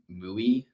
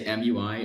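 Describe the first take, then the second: First: It is said as a single word rhyming with gooey. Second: It is spelled out as three separate letters. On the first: "or you say M U I, like like G U I, but with an M" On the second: "you either say M U I"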